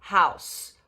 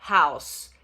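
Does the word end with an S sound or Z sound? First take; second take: S sound; S sound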